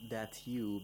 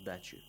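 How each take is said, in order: First: The t and y sounds are kept separate. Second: The t and y sounds blend into ch.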